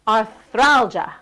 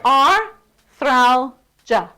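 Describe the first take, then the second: First: "Arthralgia" joined up, slow, THRAL stretched; whole word, stressed middle. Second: "arthralgia" slowly in three separate chunks; exaggerated syllable breakdown. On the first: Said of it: "more music in arthralgia". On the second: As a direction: break "arthralgia" into ar, thral, ja with gaps. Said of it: "You're exercising your jaw". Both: Shown as a demonstration.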